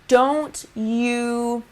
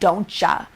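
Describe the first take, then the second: First: Every word is pronounced fully and clearly. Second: The words are blended into a reduced form. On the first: It sounds more proper and professional. The speaker calls it right. "completely enunciate words like" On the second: It can seem a little unprofessional. The speaker calls it wrong. "instead of"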